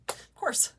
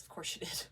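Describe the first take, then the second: First: Of course breaks into a laugh, higher and louder. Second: Knowing, breathless aside, voice dropped to nothing; whispered sarcasm. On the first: Laughing at the hostess's trick for viewers, amused. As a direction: laugh it out, can't keep a straight face. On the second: Commenting to viewers on the hostess, sly whispered sarcasm. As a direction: let it slip out as a dry little whisper. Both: Real, not acted.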